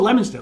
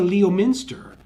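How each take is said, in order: First: The name is pronounced the way locals say it. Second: The name is pronounced the way outsiders say it. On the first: The speaker is from the area. The speaker calls it right. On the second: The speaker is not from the area. The speaker calls it wrong.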